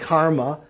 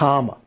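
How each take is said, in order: First: The r sound after the first vowel is pronounced. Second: The r sound after the first vowel is dropped. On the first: This is the Sanskrit form. "instead of saying karma" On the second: This is the Pali form. "like John Kennedy pronouncing Sanskrit"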